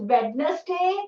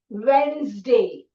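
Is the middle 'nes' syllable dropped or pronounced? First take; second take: pronounced; dropped. First: The middle 'nes' syllable is pronounced. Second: The middle 'nes' syllable is dropped. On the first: The speaker calls it wrong. "nobody says Wednesday" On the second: The speaker calls it right. "note the dropped syllable"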